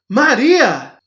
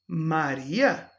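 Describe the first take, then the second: First: It is said with an exclaiming tune. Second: It is said with a questioning tune.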